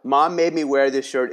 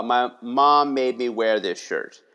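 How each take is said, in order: First: Brightly presented as a memoir title; upbeat reframe. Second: Put-on slow, mumbled kid's complaint; a frustrated third grader grumbling about his shirt; glum kid. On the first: Shown as a demonstration. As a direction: sell the kid's complaint back as a story. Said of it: "is a six-word story right there". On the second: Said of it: "And he said".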